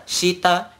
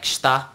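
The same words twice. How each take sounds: First: "shita" with a clear i, shee-ta; full syllables. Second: "shita" squeezed to shta; dropped vowel. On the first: Teacher points out the slow form, full shee-ta. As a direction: sound both vowels in "shita". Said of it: "you notice the". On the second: Teacher recalls how it sounded before, shta. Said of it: "it sounded like". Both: Shown as a demonstration.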